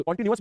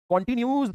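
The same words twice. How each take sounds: First: Said in the usual way. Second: कंटीन्यूअस said as "kon-tin-yooz"; misspelling read aloud. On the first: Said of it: "भी नहीं, न्यूज़". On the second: Shown as a demonstration. Teacher teasing class over misspelling, कंटीन्यूअस mispronounced "continyooz". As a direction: end कंटीन्यूअस in "-nyooz", dropping the last syllable. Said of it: "कंटीन्यूअस भी नहीं, न्यूज़".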